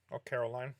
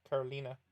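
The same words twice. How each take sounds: First: "Caroline" said without a final vowel, ending on "line". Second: "Carolina" with a final "a", the "li" said like "lee". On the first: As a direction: try the name as "Caroline", no "a" at the end. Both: Shown as a demonstration. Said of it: "Is it Carolina or Caroline?".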